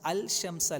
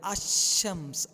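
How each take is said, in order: First: The L is clearly pronounced before sh. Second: The L merges into a doubled sh sound. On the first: The speaker calls it wrong. "അൽ ഷംസ് അല്ല" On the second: The speaker calls it right. "അശംസ്, അൽ ഷംസ് അല്ല"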